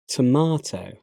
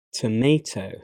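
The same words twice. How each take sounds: First: "tomato" as to-MAH-to; British pronunciation. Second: "tomato" as to-MAY-to; American pronunciation. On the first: Teacher reading the British form of each pair, British pronunciation. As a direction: say "tomato" with an "ah" in the middle. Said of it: "I'm a British English native speaker". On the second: Teacher trying the American form, American pronunciation. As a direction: say "tomato" with an "ay" in the middle. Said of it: "my American pronunciation". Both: Shown as a demonstration.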